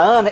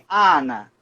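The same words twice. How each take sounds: First: The first vowel comes out partly through the nose. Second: The first vowel comes out through the mouth only. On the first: "esse N nasaliza o A" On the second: "O italiano fala muito assim"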